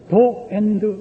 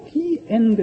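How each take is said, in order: First: 'The' is said with a short 'uh' vowel. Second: 'The' is said with a long 'ee' vowel. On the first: "더 엔드 그렇다는 거예요" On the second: "모음 앞에서는 더를 디라고 발음한다"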